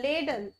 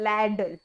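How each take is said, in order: First: लेडल said with a plain e, as in led; wrong pronunciation. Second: लैडल with an open a as in lad; correct pronunciation. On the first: Teacher showing students the wrong way: लेडल with e. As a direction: mispronounce लेडल as lay-dull like some kids do. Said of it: "but वो गलत है". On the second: Teacher giving students the right form: लैडल, open a. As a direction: say लैडल clearly, a as in cat. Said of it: "ये होता है लैडल". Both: Shown as a demonstration.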